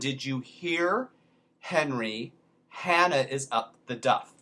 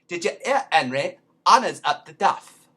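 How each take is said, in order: First: It is said in the speaker's plain accent. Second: It is said in a Cockney accent, dropping H's.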